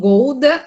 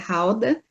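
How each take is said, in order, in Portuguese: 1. A palavra é pronunciada do jeito do português brasileiro. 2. A palavra é pronunciada do jeito local holandês. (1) "As pessoas pronunciam Gouda aí no Brasil" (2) "mas a pronúncia correta é Gouda"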